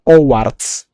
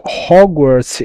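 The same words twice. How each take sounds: First: "Hogwarts" as "Owarts", H dropped, drawn out; Italian dubber's mispronunciation. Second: Said in the usual way. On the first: Retold or imitated. Streamer explaining a dub joke, "Hogwarts" mispronounced as "Owarts". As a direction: say "Hogwarts" slowly without its H, "Owarts". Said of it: "he says Hogwarts". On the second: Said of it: "instead of saying Hogwarts".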